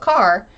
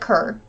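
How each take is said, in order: First: The vowel sounds like the one in 'car'. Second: The vowel sounds like the one in 'fur'. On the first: This is how people from elsewhere say it. "All of the non-locals call it Carr" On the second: This is how people from the area say it. "All of us locals call it Kerr"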